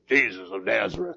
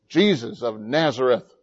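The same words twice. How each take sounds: First: It is said in a put-on Roman voice. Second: It is said in the speaker's plain voice.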